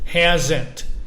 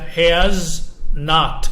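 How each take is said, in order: First: Not is reduced and joined onto has. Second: Not is said as a full separate word. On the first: "Esta forma de aquí se llama contracción" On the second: "este se pronuncia has not"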